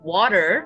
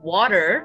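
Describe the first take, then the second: First: It is said in an American accent. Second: The same.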